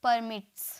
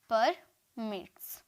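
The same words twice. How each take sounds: First: Said in the usual way. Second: परमिट्स drawn out slowly as पर, then मिट्स; syllable by syllable. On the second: Shown as a demonstration. Teacher repeats the new form for students, syllable by syllable. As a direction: break परमिट्स in two with a long gap.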